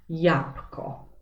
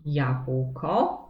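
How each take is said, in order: First: "jabłko" with the ł dropped, as yapko; simplified pronunciation. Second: "jabłko" with the ł clearly sounded, as yabwko; full careful pronunciation. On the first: Teacher showing pupils everyday speech, simplified "jabłko" without the ł. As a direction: say "jabłko" as japko, b devoiced to p. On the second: Teacher showing pupils the unsimplified word, full careful pronunciation of "jabłko". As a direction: say "jabłko" slowly with every consonant. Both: Shown as a demonstration. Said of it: "możemy wymówić jak".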